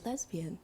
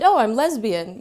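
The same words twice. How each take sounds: First: Whispered. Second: Proud. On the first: Nervous teen whispering her identity to the group. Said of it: "and then I kind of whispered". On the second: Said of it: "feel pride in it". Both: Retold or imitated.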